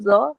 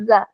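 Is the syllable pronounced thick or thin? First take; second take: thick; thin. First: The syllable is said thick, with a rounded vowel. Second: The syllable is said thin, with an open vowel. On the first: The speaker calls it wrong. "bunyinya bukan zo" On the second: The speaker calls it right. "za ini termasuk huruf tipis"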